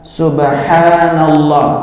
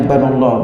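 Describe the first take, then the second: First: The word is said fully, with a long first sound. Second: The word is rushed and its first syllable dropped. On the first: The speaker calls it right. "Haknya itu panjang" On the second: The speaker calls it wrong. "Yang cepat-cepat kadang-kadang bilangnya banallah"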